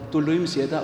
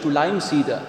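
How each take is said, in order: First: It is said in Allgäu dialect. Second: It is said in standard German.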